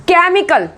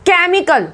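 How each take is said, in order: The two takes are said the same way.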